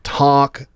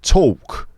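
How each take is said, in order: First: It is said with an American accent. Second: It is said with a Cockney accent. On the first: "In American English are like" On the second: "in a Cockney accent, they're going to sound like"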